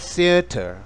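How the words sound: It is said with a British accent. "Es usual que los británicos digan theatre"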